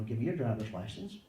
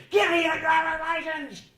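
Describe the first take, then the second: First: Said in the usual way. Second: Loud, high-pitched demanding shout; yelling and screaming. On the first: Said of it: "doesn't come to your car and start yelling and screaming". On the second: Shown as a demonstration. Policeman screaming at a driver for the license, furious yell. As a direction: scream the order at full blast. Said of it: "start yelling and screaming".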